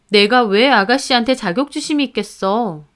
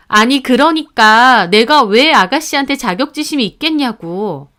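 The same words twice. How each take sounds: First: Mildly indignant wife's question; indignant retort. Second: Insistent, heated wife repeating herself; exasperated protest. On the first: Wife answering husband's jab about his sister, mildly indignant. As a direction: push back at the accusation, restrained. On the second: Wife denying envy of his sister, exasperated insistence. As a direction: protest with rising exasperation, pushing the words. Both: Acted.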